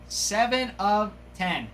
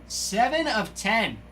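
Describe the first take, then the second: No difference in how they are said.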